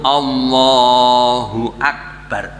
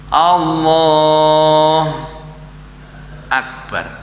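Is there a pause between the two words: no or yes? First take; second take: no; yes. First: The two words are joined without a pause. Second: There is a pause between the two words. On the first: The speaker calls it right. "Harus sambung" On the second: The speaker calls it wrong. "Berhenti sebentar tidak boleh"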